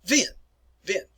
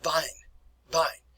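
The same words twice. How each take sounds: First: "vin" with a V and a long ee; "vin" as a model German word; German pronunciation. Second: "vine" with a German V sound; "vine" as a model German word; German pronunciation. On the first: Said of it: "this word is pronounced". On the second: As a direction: say "vine" with a V, rhyming with "line". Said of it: "that word is pronounced". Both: Shown as a demonstration.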